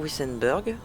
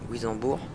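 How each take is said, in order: First: The name is said with a German-like pronunciation. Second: The name is said with a French pronunciation. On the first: This is closer to the real local pronunciation. "la prononciation réelle se, en allemand se rapproche plus de Wissenberg" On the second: This is how the speaker personally says it. "moi je prononce Wissembourg"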